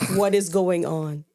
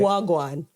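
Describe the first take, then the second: First: It is said in plain standard English. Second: It is said as one clipped patois word. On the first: The speaker calls it wrong. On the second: The speaker calls it right.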